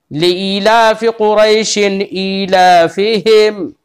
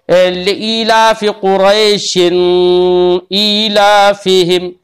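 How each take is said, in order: First: कुरैशिन with a clean, clear न and no nasal hum, slow; clear izhar. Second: कुरैशिन with a nasal ghunna on the final न, slow; wrong nasal reading. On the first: Teacher showing a student the correct recitation, clear izhar. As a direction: say कुरैशिन ईलाफिहिम crisply, no ghunna. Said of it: "बिल्कुल साफ साफ". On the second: Teacher showing a student how not to recite, nasal ghunna. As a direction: drag कुरैशिन through the nose into ईलाफिहिम. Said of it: "ऐसे नहीं पढ़ेंगे". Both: Shown as a demonstration.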